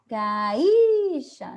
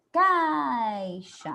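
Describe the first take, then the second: First: Caixa as ca-Í-xa, high loud i; I forte, errado. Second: Caixa with long stressed A gliding down into i; A mais forte. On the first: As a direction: wrongly stretch and stress I in caixa. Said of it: "Eu não falei". (caixa errado, ca-í-xa) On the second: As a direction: lean on the A in caixa, weak i. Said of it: "O A é o mais forte". (caixa correto, CÁI-xa alongado) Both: Shown as a demonstration.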